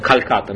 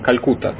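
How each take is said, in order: First: The second syllable has an 'a' vowel. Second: The second syllable has a 'u' vowel. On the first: This is how the locals say it. "они говорят Калькатта" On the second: This is how Russian speakers say it. "мы говорим Калькутта"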